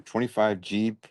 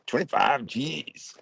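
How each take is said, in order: First: Said in the usual way. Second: Slow, drawn-out big-shot boast; baller swagger. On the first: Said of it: "you said twenty-five Gs". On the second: Pretend. Reading out an order to Steve, mock baller swagger. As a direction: savor it like a rich baller. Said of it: "you said twenty-five Gs and being a baller".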